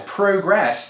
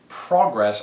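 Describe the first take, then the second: First: It is said with a British pronunciation. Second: It is said with an American pronunciation.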